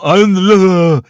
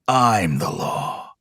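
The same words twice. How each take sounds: First: It is mumbled and hard to understand. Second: It is said in a gravelly Dredd voice.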